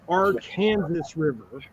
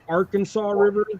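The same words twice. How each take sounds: First: The name is said the local Kansas way. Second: The name is said the common national way. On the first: This is what the river is really called. "is actually the Arkansas River" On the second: This is how most of the country names it. "that everybody calls the Arkansas River"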